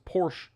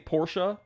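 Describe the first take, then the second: First: It is said with one syllable, last syllable dropped. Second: It is said with two syllables, ending in a vowel. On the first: A shortened form of the name. "I just assumed that they were doing it as like a abbreviation" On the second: The full form of the name. "but I say Porsche"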